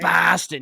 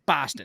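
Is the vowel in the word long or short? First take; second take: long; short. First: The vowel is dragged out long. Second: The vowel is short and snappy. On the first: The speaker calls it wrong. "You can't like drag out the vowel like that" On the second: The speaker calls it right. "It's a very short, very, very, sn- very snappy"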